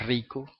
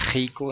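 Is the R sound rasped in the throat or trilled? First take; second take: trilled; rasped. First: The R is trilled with the tongue tip. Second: The R is rasped at the back of the throat. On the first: "en vez de" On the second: "eso es característico de los puertorriqueños"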